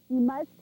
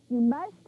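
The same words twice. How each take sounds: No difference in how they are said.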